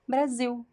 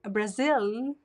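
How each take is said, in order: First: The word ends with a weak U sound. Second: The word ends with a clear L sound. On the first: The speaker calls it right. "it's Brasil" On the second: The speaker calls it wrong. "It's not Brazil"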